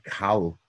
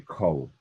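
First: The vowel is an open 'a' sound. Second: The vowel is a plain 'o' sound. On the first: This reading ignores the long kometz. The speaker calls it wrong. "they're not going to say Kal" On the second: The speaker calls it right. "a Sfaradim will say Kol"

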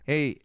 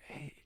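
First: The word is spoken in a normal voice. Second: The word is whispered. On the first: "or like just regular"

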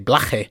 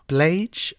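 First: The surname is said with Spanish sounds. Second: The surname is said with English sounds.

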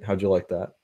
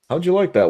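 First: It is said in a plain everyday voice. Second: It is said in a booming announcer voice. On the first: The performer drops out of character after the speech. "so it wasn't like he was like, ladies and gentlemen, blah, blah, blah, and he's like, oh, okay, that was all right" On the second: The performer stays in character even after the speech. "He still had that inflection"

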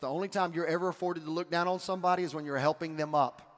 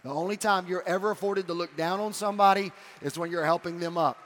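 First: It is said fast. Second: It is said slowly.

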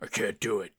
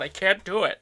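First: It is said in a gruff, deep put-on voice. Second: It is said in a fairly ordinary voice. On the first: The speaker calls it right. "It would be" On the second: The speaker calls it wrong. "I'm doing it wrong in the voice"

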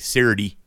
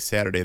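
First: It is said in a Southern US accent. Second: It is said in a standard, non-Southern accent.

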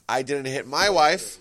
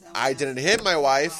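First: The stress falls on the word 'my'. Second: The stress falls on the word 'hit'. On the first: Somebody else's wife was hit. "so it means you hit somebody else's wife" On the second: The wife was harmed in some other way. "But you kicked her"

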